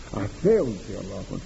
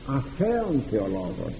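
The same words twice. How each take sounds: First: Said in the usual way. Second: Αθέων slowed and hammered, set against αθεολογήτων; slow, weighty correction on αθέων; stress on αθέων. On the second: Shown as a demonstration. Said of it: "Ακούστε, όχι αθεολογήτων". (έμφαση στο αθέων, αργά)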